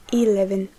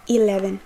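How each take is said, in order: Both takes have the same delivery.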